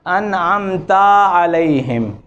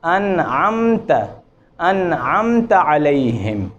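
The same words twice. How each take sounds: First: अनअमता with the final a stretched into an alif; wrong long ending. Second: अनअमत with the ta kept short; correct short vowel. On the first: Teacher showing a common recitation mistake. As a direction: slowly drag out the ता in अनअमता. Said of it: "ये गलत है". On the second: Teacher giving the correct recitation. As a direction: say अनअमत slowly, ta clipped to one beat. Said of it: "ये दुरुस्त है". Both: Shown as a demonstration.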